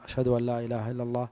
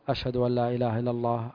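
The two takes are said the same way.

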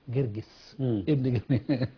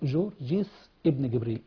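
First: The name is said in the Egyptian dialect form. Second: The name is said in a non-Egyptian form.

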